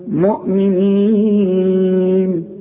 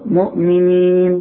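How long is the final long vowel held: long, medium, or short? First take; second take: medium; short. First: The last long vowel is held four beats. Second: The last long vowel is held two beats. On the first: "يبقى 2 و4 و6" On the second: "يبقى 2 و4 و6"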